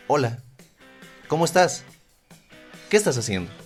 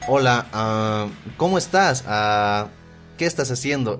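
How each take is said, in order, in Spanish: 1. Los espacios entre frases se dejan como pausas silenciosas. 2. Los espacios entre frases se llenan con sonidos de relleno. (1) "Puedes usar silencios" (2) "En lugar de decir"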